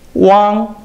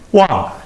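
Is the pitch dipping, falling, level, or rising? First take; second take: level; falling. First: The pitch stays high and level. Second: The pitch falls sharply from high to low.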